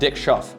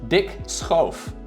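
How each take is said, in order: First: The surname has an English pronunciation. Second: The surname has its Dutch pronunciation.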